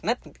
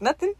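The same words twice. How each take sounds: First: Said in the usual way. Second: "Nothing?" pitched high with a rising end; questioning echo. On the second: Retold or imitated. Ed checks Frenchie's answer, questioning. Retold exchange, answer then query.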